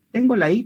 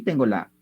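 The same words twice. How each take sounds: First: I sounded higher and stronger; stress on I. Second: Said in the usual way. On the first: Shown as a demonstration. Teacher showing the accented vowel to students, stress on I. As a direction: make the closed vowel I ring out strongly. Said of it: "Está sonando más fuerte que la abierta". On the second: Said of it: "más fuerte que la abierta".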